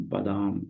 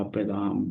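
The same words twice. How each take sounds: First: बादाम said clearly with a crisp voiced b and a full d; बादाम pronounced cleanly and deliberately for students; careful correct word. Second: A first loose take of बादाम before correcting it; बादाम with a blurred, unvoiced-sounding opening; first try at a word. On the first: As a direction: repeat बादाम slowly and correctly like a teacher. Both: Shown as a demonstration. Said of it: "देखिए सुरखा".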